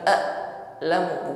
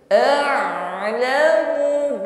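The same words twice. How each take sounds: First: The throat consonant is cut off abruptly. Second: The throat consonant flows on partially. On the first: The speaker calls it wrong. "bukan putus bunyi huruf ain" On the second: The speaker calls it right. "tapi alirkan sebagian"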